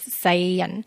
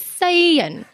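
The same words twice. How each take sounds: First: It uses the tone pattern of 'the world'. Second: It uses the tone pattern of 'white people'. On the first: It means the world. The speaker calls it right. "God loves the world, which is Sai Yan" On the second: The speaker calls it wrong.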